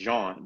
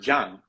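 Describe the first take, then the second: First: The name has a French pronunciation. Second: The name has a Spanish pronunciation. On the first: "the way that you pronounce it in France" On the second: "In Spanish, you don't pronounce it the way that you pronounce it in France"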